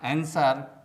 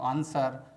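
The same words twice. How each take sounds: First: The word is said with an American accent. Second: The word is said with a British accent. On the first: "आंसर American pronunciation है" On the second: "आंसर British pronunciation है"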